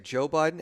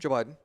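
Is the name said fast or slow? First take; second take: slow; fast. First: The name is said slowly as two separate words. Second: The name is said fast, run into one word. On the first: "they don't say Joe Biden" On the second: "one word, as fast as possible, one syllable"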